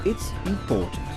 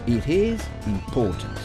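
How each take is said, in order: First: "It is" is contracted to one syllable. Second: "It is" is said as two full words.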